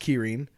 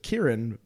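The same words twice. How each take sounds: First: It is said with a Japanese pronunciation. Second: It is said with an English pronunciation. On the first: "it's pronounced Kirin" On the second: "the way we pronounce it"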